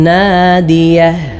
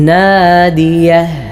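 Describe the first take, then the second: Both takes have the same delivery.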